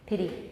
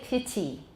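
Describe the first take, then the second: First: The middle t is a quick tongue tap. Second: The middle t is a full t sound. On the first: The speaker calls it right. "That's the American way" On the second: The speaker calls it wrong. "so I don't say pity"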